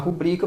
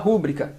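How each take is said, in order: First: The stress is on the second syllable. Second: The stress is on the first syllable. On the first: The speaker calls it right. "Ao invés de falar rubrica" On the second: The speaker calls it wrong. "Isso é uma silabada"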